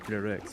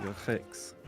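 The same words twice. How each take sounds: First: The R in the word is clearly pronounced. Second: The R in the word is not pronounced. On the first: The speaker calls it wrong. "you don't say them lyrics" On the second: The speaker calls it right. "You would say lyrics, or you'd say that as a non-rhotic R"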